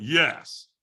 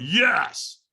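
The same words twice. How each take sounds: First: Said in the usual way. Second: Louder, higher forced yes; raised-voice retold yes; stronger yes. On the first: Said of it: "I was leaving a lot on the table". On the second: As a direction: answer a coach with more effort. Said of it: "And I went".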